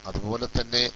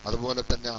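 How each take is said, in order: Both takes have the same delivery.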